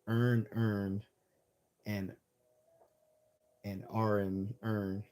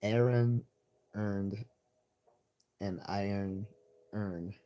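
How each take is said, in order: First: Imitating Baltimore, vowels merged into "earn"; slow Baltimore-accent demonstration, word by word. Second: AARON, EARNED, IRON and URN each said distinctly; slow test phrase with a gap after each word; "Aaron" punched, then every word kept separate; careful enunciation. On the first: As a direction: mimic how Baltimore locals flatten the phrase. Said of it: "that's how they would sound". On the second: Shown as a demonstration.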